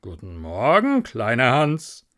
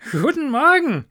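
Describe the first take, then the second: First: Patronising miller. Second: High, loud, delighted greeting; cheerful little Hans. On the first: Miller greeting little Hans, patronising. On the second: Hans greeting his friend the miller, cheerful. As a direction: ring it out high and happy. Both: Acted.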